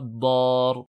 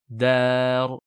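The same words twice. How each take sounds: First: The first consonant is thick and emphatic. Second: The first consonant is thin, not emphatic. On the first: The speaker calls it wrong. "et pas dar" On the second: The speaker calls it right. "Pareil pour dar"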